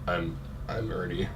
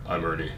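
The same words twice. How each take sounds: First: Deep, soft Rock impression; Dwayne Johnson voice. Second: Low, soft hint of Dwayne Johnson; quick low try at the Rock. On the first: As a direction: drop low and soft like the Rock. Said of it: "That, that sounded vaguely Dwayne Johnson-esque". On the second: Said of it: "can you imagine Dwayne Johnson saying".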